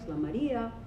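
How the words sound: The pitch rises and then falls at the end. "like the circumflex"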